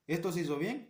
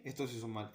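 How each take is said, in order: First: "bien" lifted with a light rising tune, like ticking a box; mock inspector with a clipboard, marking it good; approving checker. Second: "mal" dropped low and softer, falling flat; mock inspector with a clipboard, marking it bad; disapproving checker. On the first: (inspector aprobando, "bien" con tono ascendente) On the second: (inspector reprobando, "mal" más bajo y suave, tono descendente) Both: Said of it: "vas a estar con un tablero".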